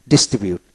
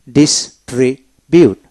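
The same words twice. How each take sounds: First: Said in the usual way. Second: distribute slowly broken into dis-tri-bute; syllable-by-syllable. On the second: Shown as a demonstration. Teacher showing how to read the verb, distribute slowly split. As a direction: sound out distribute piece by piece. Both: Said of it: "আসুন কিভাবে পড়বেন".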